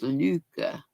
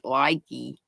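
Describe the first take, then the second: First: The name is said as 'looka'. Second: The name is said as 'likey'. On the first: The speaker calls it right. "she said it's pronounced Luca" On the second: The speaker calls it wrong. "I always pronoun- pronounced it likey"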